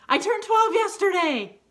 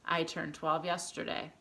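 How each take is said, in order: First: High, loud exclamation; really excited. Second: Said in the usual way. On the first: Shown as a demonstration. Teacher showing pupils the exclamation version, really excited. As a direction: burst out with the big news. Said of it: "Unless you're really excited about it". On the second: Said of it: "you can either say".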